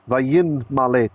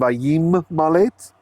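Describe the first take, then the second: First: The nasal before malet is an n sound. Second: The nasal before malet is an m sound. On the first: This is the older form of the word. "in ancient times" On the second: This is the later form of the word. "That became"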